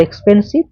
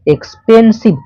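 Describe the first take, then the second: First: Said in the usual way. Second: এক্সপেন্সিভ higher and louder, pulled out by syllables. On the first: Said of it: "more এক্সপেন্সিভ". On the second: Shown as a demonstration. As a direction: stretch এক্সপেন্সিভ as এক্স-পেন-সিভ. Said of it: "কয়েকটা সিলেবেলে তোমাকে ভাঙতে হয়".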